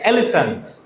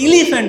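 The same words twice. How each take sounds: First: The first vowel is a short 'eh' sound. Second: The first vowel is a long 'ee' sound. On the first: The speaker calls it right. "কিন্তু বলি কি?" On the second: The speaker calls it wrong. "ই যদি ই দিয়েই উচ্চারণ হয়"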